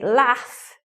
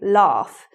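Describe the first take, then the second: First: It is said in a northern English accent. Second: It is said in a southern English accent. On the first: "And you say laugh" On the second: "we say laugh"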